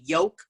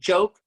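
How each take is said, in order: First: The word begins with a Y sound. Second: The word begins with a J sound. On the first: "we say yoke. We're not able to say the J, we say Y" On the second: "instead of saying joke"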